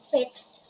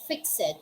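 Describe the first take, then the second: First: The ending joins the word without extra syllable. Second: The ending is a separate extra syllable. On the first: The speaker calls it right. "we don't pronounce letter E. We just say" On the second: The speaker calls it wrong. "we don't say fix it"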